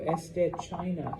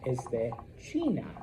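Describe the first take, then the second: First: China is said with English sounds. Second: China is said with Spanish sounds. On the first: The speaker calls it wrong. "don't be like, oh" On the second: The speaker calls it right. "that's how you would say it in Espanol"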